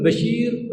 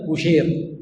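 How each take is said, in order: First: بشير said ba-SHEER, open a after the b; bashir with fatha. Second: بشير said bu-SHAYR, rounded u after the b; bushayr with damma. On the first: Teacher contrasting two readings of one spelling, بشير as bashir. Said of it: "تقول بشير فتح الباء". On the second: Teacher contrasting two readings of one spelling, بشير as bushayr. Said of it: "وتقول بشير بضم الباء". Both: Shown as a demonstration.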